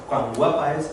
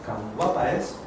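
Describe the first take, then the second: First: Said in the usual way. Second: Much lower and softer, almost hushed; quiet, intimate cuán guapa es; soft repetition. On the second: Shown as a demonstration. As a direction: let the compliment fade to a hush. Repeats the compliment, fading.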